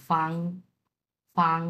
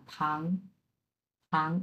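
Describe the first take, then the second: First: ফাং with a puff of air; ফাং said with air, tissue moving; aspirated f. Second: ফাং with no air, softer; ফাং said with lips closed, no breath; unaspirated f. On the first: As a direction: breathe out hard on ফাং. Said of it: "মুখের সামনে ধরবেন, ধরে এটা উচ্চারণ করবেন". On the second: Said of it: "মুখ বন্ধ রেখে". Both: Shown as a demonstration.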